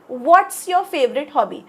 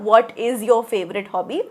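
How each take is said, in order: First: 'What is' is contracted into one word. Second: 'What is' is said as two full words. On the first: "असं पण बोली भाषेत म्हणतो आपण" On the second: "तुम्ही व्हॉट इज असं म्हणू शकता"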